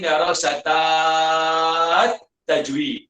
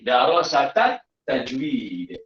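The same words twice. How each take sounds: First: The vowel before the linked article is lengthened. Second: The vowel before the linked article is short. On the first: The speaker calls it wrong. "jangan sebut" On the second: The speaker calls it right. "Kita tak perlu panjangkan ta"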